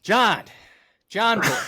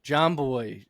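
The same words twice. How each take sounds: First: Higher and louder, a wrestler calling out; dramatic promo shout. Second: Said in the usual way. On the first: Acted. Host re-reading Punk's promo, shouted with emotion. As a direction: bellow it like a ring promo. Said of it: "the emotion that you put into reading that". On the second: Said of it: "he said".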